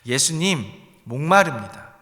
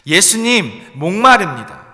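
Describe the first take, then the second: First: It is said at normal volume. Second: It is shouted loudly.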